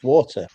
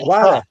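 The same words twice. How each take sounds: First: It is said in a crisp British accent. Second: It is said American, the t like d.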